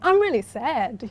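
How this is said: The voice rises and sounds excited. The speaker seems happy, which confuses the listener. The speaker calls it wrong. "You wouldn't say"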